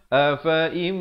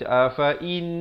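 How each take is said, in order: First: The word is said with an m sound. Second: The word is said with an n sound. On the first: The speaker calls it right. "jadi jadi kita bacanya bunyinya afaim" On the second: The speaker calls it wrong. "Jangan baca afain. Salah ya"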